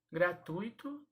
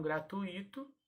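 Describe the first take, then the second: First: "Gratuito" said gra-TÚI-to; stress on TUI. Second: "gratuito" said gra-tu-Í-to; wrong-form demo. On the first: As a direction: TUI of "Gratuito" as one syllable. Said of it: "e não gratuito". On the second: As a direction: split U-I, stressed I in "gratuito". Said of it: "e não". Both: Shown as a demonstration.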